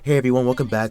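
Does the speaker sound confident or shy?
shy. The voice sounds nervous, shy and hesitant. The speaker did not yet know how to address an audience. "I was very nervous"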